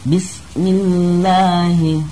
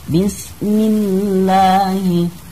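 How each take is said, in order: No difference in how they are said.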